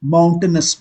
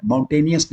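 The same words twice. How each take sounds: First: माउंटेनस as MOUN-ten-us; teacher models माउंटेनस, not माउंटेनियस; correct pronunciation. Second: माउंटेनियस with an extra "ee-us" ending; teacher shows the wrong माउंटेनियस; wrong pronunciation. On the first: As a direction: say माउंटेनस crisply, three syllables. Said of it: "माउंटेनियस नहीं बोलते हैं". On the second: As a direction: say माउंटेनियस as the common mistake. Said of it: "नहीं बोलते हैं". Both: Shown as a demonstration.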